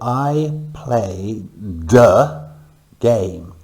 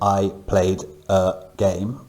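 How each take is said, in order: First: The d sound joins onto the next word. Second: Each word is said separately, like a robot. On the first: The speaker calls it right. "I've moved the de from the end of play to the beginning of the next word" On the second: The speaker calls it wrong. "we don't say I played a game, sound like a robot"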